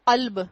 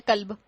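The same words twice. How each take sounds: First: قلب with a heavy q from far back in the throat; deep qaf. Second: قلب mispronounced as kalb, with a light k; hasty misreading of قلب as kalb; careless k sound. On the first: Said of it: "بڑی قاف کے ساتھ". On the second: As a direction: say قلب with a plain front k instead of qaf. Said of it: "ہم نے جلدی میں پڑھ لیا". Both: Shown as a demonstration.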